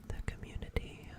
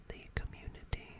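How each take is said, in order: The two takes are said the same way.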